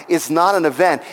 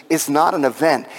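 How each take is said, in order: Both takes have the same delivery.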